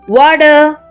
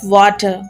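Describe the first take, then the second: First: It is said in an imitated foreign accent. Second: It is said in the speaker's natural accent. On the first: He is trying to sound like someone else. "copied the tone, forced the rhythm" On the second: This is how he used to speak. "instead of"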